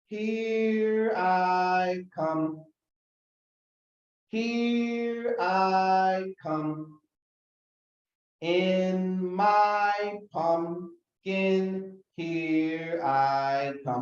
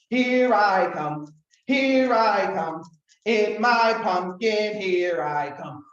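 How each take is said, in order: First: It is said slowly. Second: It is said very fast.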